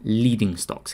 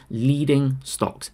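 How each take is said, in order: First: "leading" set apart with firm emphasis; stress on leading. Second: Very slow, stretched-out "leading"; emphatic stress on leading. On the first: Teacher naming the key word to viewers, emphasis on "leading". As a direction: put measured weight on "leading". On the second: Correcting lagging to leading for viewers, drawn-out stress on "leading". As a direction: draw out "leading" to drive it home. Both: Shown as a demonstration. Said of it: "key emphasis on that word".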